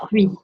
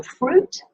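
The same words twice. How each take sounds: First: "Fruit" in French, silent t, ending in "wee"; French pronunciation. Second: Said in the usual way. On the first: Shown as a demonstration. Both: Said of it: "is your fruit".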